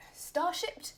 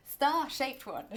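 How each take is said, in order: First: Star-shaped said as "star-shipped", rising and higher; mispronounced word. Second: Star-shaped with a clear long "ay" in shaped, falling; corrected pronunciation. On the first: Baker tripping over the nozzle's name, star-shaped slurred to "star-shipped". Stumbles on word, then corrects it. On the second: Baker fixing a slip about the nozzle, star-shaped said clearly with long "ay". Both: Real, not acted.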